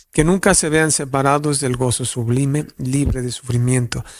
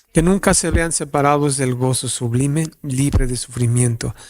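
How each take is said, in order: The two takes are said the same way.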